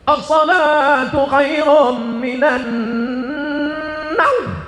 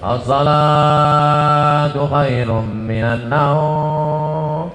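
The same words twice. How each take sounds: First: It is said loudly, with great energy. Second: It is said weakly, with little energy. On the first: Many worshippers came to dawn prayer. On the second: Only the usual few worshippers came to dawn prayer.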